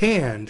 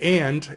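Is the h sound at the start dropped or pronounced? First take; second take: pronounced; dropped. First: The word starts with a clear h sound. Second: The word starts with no h sound. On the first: "and it's hand" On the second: "because some people don't pronounce the H's"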